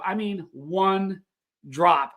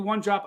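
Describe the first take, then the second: First: "one" drawn out, slow pause before "drop"; stress on one drop. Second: Said in the usual way. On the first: Shown as a demonstration. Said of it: "When I tell you one drop".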